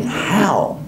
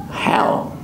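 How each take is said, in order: First: Said in the usual way. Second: Whisper. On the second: Retold or imitated. Thinking in the cold.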